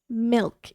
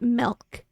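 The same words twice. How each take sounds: First: The vowel is the short i sound. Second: The vowel is the short e sound. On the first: The speaker calls it right. "It is an I" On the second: The speaker calls it wrong. "not an E. It is not milk"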